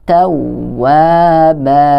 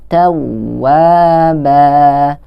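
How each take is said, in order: The two takes are said the same way.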